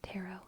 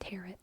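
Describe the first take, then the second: First: The final T is silent. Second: The final T is clearly pronounced. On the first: The speaker calls it right. "So I pronounce it like that" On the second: The speaker calls it wrong. "What is not okay is tarot"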